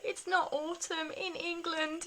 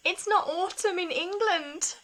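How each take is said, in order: First: High, slow, drawn-out tearful whine; mock sob, self-mocking; imitating crying. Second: High, louder, slow tearful wail; mock-tragic wail retelling her tears; imitating crying. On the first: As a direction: stretch it out like an inconsolable child. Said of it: "just crying my eyes out". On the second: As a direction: replay the meltdown as a hammed-up sob. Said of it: "and started, like, just really crying".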